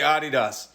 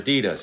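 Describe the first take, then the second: First: The name is said in a European way. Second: The name is said in an American way. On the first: "the Europeans say Adidas" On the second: "or Adidas if you're American"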